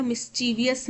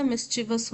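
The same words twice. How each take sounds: First: "मिस्चीवियस" with an extra i sound, ending vi-yus; mispronunciation. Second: "मिस्चीवस" in three syllables, ending in plain vus; correct pronunciation. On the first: Teacher showing students the wrong form, mispronounced with extra syllable. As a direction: say "मिस्चीवियस" in four syllables, mis-chee-vi-yus. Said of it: "मिस्चीवियस नहीं होता". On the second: Teacher giving students the correct form, pronounced mis-chee-vus. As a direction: say "मिस्चीवस" with no i before the final us. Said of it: "मिस्चीवस होता है". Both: Shown as a demonstration.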